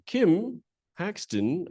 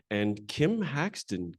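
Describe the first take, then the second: First: Higher, slow call with a rising end. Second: Said in the usual way. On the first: Real, not acted. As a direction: call the name out across the room. Calling her into the room.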